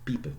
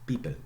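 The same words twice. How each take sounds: The two takes are said the same way.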